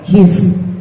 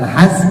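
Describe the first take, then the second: First: The vowel after h is i. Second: The vowel after h is a. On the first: The speaker calls it right. "dengan dibaca kasroh huruf hak kecilnya" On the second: The speaker calls it wrong. "Jadi bukan has"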